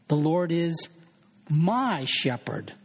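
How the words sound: The word my is stressed.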